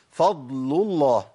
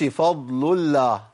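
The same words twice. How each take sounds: First: Very slow "فضل الله" with a thick, dark l; heavy lam. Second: Slow "فضل الله" with a light, clear l; wrongly thin the l of "الله" after the u; thin lam. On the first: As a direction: after the u, make the l of "الله" emphatic. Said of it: "نجيب مثال للضم". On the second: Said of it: "ما أقولش فضل الله، ما ينفعش". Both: Shown as a demonstration.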